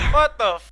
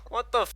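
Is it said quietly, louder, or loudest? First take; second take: loudest; louder. First: It is said loudest. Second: It is said louder.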